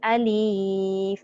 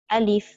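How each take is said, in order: First: The vowel is drawn out long. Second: The vowel is kept short. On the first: The speaker calls it wrong. "Jangan kita baca meleret" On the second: The speaker calls it right. "sebut sekali je menunjukkan satu harakat"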